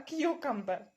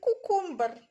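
First: The word begins with a 'kyoo' sound. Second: The word begins with a plain 'koo' sound. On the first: The speaker calls it right. "не кукумбер, а к'юкамбер" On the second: The speaker calls it wrong. "А для них, для всіх, кукумбер"

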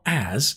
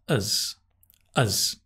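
First: The word is said with a full vowel. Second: The word is said with a reduced vowel. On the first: The speaker calls it wrong. "It's not as" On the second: The speaker calls it right. "it's as, because it's unstressed"

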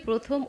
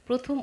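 The two takes are said the same way.

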